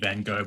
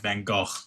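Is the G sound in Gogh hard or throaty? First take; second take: hard; throaty. First: The G is a hard English-style G sound. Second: The G is a rough, throaty sound. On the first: The speaker calls it wrong. "that's not actually meant to be Van Gogh" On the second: The speaker calls it right. "but it's more like Van Gogh"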